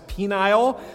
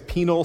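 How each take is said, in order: First: The second syllable has a long 'eye' vowel. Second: The second syllable has a short, weak vowel. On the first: The speaker calls it wrong. "if you say the first word a little bit wrong" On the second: The speaker calls it right. "That phrase again is penal substitutionary atonement"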